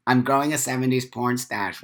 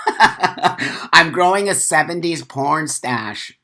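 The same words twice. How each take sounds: First: Said in the usual way. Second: Slow, laughing through the line; chuckling as he shows off the stash. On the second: Real, not acted. Tells chat about his mustache, laughing slowly.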